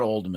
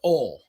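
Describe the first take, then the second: First: The first word ends with a d sound. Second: The first word ends without a d sound. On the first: The speaker calls it wrong. "It's not Old Miss" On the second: The speaker calls it right. "It's Ole, O L E"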